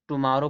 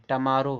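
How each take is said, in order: First: "टुमारो" starting with too; wrong pronunciation. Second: "टमारो" as tuh-maaro; "टमारो", first vowel reduced; correct pronunciation. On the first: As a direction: say "टुमारो" as tu-maaro. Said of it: "पढ़ते हैं". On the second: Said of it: "इसको पढ़ा जाता है". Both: Shown as a demonstration.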